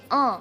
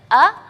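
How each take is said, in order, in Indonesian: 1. Vokal didorong lewat hidung, terdengar sengau. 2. Vokal diucapkan lewat mulut, bukan sengau. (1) "kita mengalihkan angin huruf a itu ke rongga hidung jadi e" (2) "yang seharusnya kita bacanya a"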